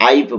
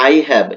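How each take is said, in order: First: "আইভ" as one syllable; contraction "আইভ". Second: Said in the usual way. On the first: Shown as a demonstration. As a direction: run I and have together into "আইভ". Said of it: "short ফরম্যাটে করে আইভ বলবে". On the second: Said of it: "এটাকে short ফরম্যাটে করে".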